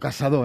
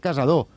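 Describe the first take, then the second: First: The middle s sound is voiceless, like s. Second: The middle s sound is voiced, like z. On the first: The speaker calls it right. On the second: The speaker calls it wrong.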